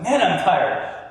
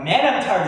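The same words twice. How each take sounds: First: Slower, heavier Man, I'm tired; darker tired. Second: A brisker, livelier sigh of Man, I'm tired; more energetic. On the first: Showing the darker stage of the scale to the audience, heavy and slow. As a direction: let Man, I'm tired sag, dragging it out. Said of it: "it's a little bit darker". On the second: Demonstrating the lighter tired stage to the audience, energetic. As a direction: say Man, I'm tired with some bounce left. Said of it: "is a little bit more energetic". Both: Shown as a demonstration.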